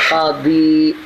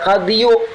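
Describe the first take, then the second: First: The word ends on a plain long 'ee'. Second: The word ends with an added 'yu' sound. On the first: The speaker calls it right. "dibaca qadi" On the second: The speaker calls it wrong. "kada dibaca qadiyu"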